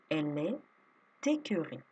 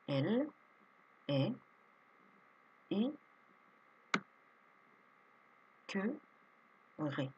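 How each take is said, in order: First: The t of est is sounded before écœurée. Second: The t of est is not sounded before écœurée.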